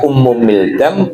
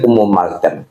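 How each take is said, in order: First: The second word is said with an 'i' vowel. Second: The second word is said with an 'a' vowel. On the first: "Boleh boleh dibaca Ummu Mildam" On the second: "boleh Ummu Maldam"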